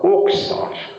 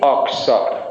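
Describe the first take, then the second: First: The first vowel is a rounded o sound. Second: The first vowel is an open a sound.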